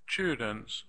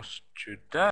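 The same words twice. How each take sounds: First: Students with STU strong, the ending weak; stress on first syllable. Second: Students wrongly stressed as stu-DENTS, rising at the end; stress on second syllable. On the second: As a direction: lean on a full DENTS in students. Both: Shown as a demonstration. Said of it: "Do you hear students or students".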